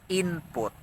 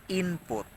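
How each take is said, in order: Both takes have the same delivery.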